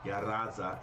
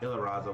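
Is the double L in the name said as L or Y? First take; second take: Y; L. First: The double L is said as a Y sound. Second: The double L is said as an L sound. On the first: "the two L's actually sound like a Y" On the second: "will say it just like they said"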